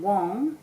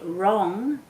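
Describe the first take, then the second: First: The word begins with a W sound. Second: The word begins with an R sound. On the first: The speaker calls it wrong. "if they're saying Wong, then they're going to spell it W O N G" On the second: The speaker calls it right. "If they say wrong, then they're going to spell it R O N G"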